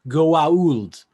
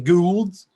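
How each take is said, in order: First: The name is said in its fuller form. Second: The name is said in a shortened form. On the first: This is how the name is properly said. The speaker calls it right. "It's pronounced Goa'uld" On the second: Someone else mangles the name. The speaker calls it wrong. "General Hammond's always the Goulds"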